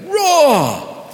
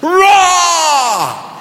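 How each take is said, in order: First: The roar is somewhat louder. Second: The roar is as loud as possible.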